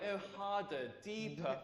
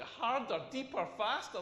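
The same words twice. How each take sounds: First: Soft mock bedroom moan; hushed mock dirty talk. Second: Mock-offended repeat with questioning rise; indignant, questioning imitation; incredulous echo. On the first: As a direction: imitate a lover's breathy urging, played for laughs. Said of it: "she started talking dirty back to me". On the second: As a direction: throw the words back in comic disbelief. Throws her words back in disbelief.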